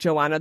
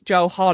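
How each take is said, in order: First: The name is said without an H sound. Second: The name is said with an H sound. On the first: The speaker calls it wrong. "I was calling her Joanna, and it's not Joanna" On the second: The speaker calls it right. "There's an H in it, so I think it's Johanna"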